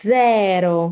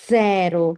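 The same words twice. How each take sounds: No difference in how they are said.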